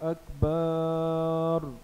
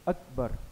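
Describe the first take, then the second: First: The second vowel is drawn out long. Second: No vowel is drawn out long. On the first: The speaker calls it wrong. "अकबर की बा को किसी ने बढ़ाकर पढ़ा" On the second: The speaker calls it right. "अलिफ पर सिर्फ ज़बर है"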